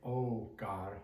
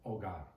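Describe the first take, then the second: First: The O vowel is long and drawn out. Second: The O vowel is short and quick. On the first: The speaker calls it wrong. "you don't say oh God" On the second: The speaker calls it right. "it's a quicker O"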